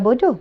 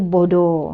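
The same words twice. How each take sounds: First: It is said in a standard Malay accent. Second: It is said in a Terengganu dialect accent. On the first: It is the plain insulting word. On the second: It is a milder, dialect use of the word. "Bahasa Ganu"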